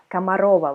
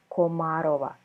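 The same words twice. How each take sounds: First: The unstressed first vowel sounds like 'a'. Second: The unstressed first vowel sounds like a clear 'o'. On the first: "Комарова вы сказали" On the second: "сербы прочитают Комарова, то есть окаем"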